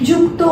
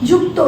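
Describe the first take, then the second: The two takes are said the same way.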